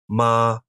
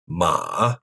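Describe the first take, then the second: First: The pitch stays high and level. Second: The pitch dips low then rises slightly. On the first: "The first tone is pronounced high and level" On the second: "The third tone dips down low and then rises a bit"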